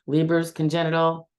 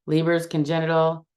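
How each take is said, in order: No difference in how they are said.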